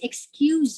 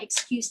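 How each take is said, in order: First: The word ends with a z sound. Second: The word ends with an s sound. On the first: It is used as a verb. "that would be with, with the z sound" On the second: It is used as a noun. "we pronounce it with, a, with an S"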